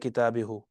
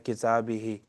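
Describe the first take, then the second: First: The word ends with a 'u' vowel. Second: The word ends with an 'i' vowel. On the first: The speaker calls it wrong. "You're not gonna say kitabihu" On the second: The speaker calls it right. "you're gonna say kitabihi"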